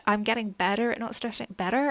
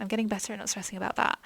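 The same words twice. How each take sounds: First: American-sounding "better", as in "bedder"; accidental American accent. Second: Said in the usual way. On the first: Real, not acted. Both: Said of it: "I don't know why I went American".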